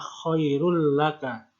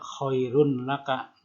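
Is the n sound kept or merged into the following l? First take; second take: merged; kept. First: The n sound merges into a doubled l. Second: The n sound is pronounced clearly before the l. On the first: The speaker calls it right. "cara bacanya adalah khairul laka" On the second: The speaker calls it wrong. "tidak khairun laka"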